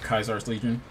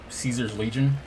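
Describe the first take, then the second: First: The name is said the classical Latin way. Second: The name is said the usual English way.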